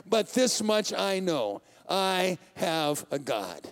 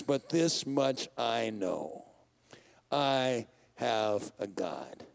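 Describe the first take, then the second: First: Slow, settled confession of faith; slow firm declaration. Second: Much lower, very slow, quiet trust; slow, soft declaration. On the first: Psalmist to God, slow and certain. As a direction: let it land slowly, sure of God. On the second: Preacher re-reads the psalmist's vow slowly and softly. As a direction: breathe it out slowly, like a quiet confession. Psalm line re-read, slowed and softened. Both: Acted.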